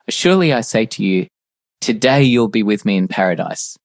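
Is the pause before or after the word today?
before. The pause comes before the word today.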